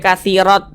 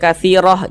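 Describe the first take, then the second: First: The word ends with a t sound. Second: The word ends with a soft h sound. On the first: The speaker calls it wrong. "jangan dibaca katsirot, jangan" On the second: The speaker calls it right. "kalau kita berhenti di sini kita baca katsiroh"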